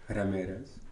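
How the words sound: The name is said with Spanish pronunciation.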